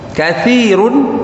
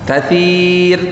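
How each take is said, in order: First: The word ends with the syllable 'un'. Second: The word ends on the bare 'r' consonant. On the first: The reading continues without stopping. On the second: The reader stops on this word.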